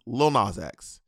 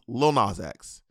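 First: The name is said with an American pronunciation. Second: The name is said with an American pronunciation.

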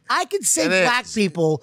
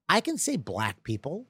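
First: The phrase is said loudly. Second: The phrase is said quietly. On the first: The speaker calls it wrong. "Not at the volume, though" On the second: The speaker calls it right. "I gotta tone it down"

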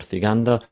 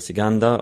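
First: The name starts with a th sound. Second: The name starts with an s sound. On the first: This is the standard Spanish way to say it. "the th sound" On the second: This is how people from Mallorca say it. "in Mallorca they don't have the th sound in Spanish"

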